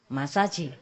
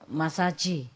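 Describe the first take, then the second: First: It is said with a heavy Chinese accent. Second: It is said with a heavy Chinese accent.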